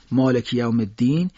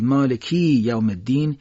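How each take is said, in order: First: مالکی with a short final i, run into یوم الدین; short vowel reading. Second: مالکی with final i held long before یوم الدین; wrongly lengthened i. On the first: Teacher contrasting meanings for listeners, short ending. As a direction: keep the ki of مالکی brief. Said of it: "اما اگر بگید". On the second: Teacher showing meaning change to listeners, long i. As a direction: stretch the ki in مالکی. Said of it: "معنیش عوض میشه". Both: Shown as a demonstration.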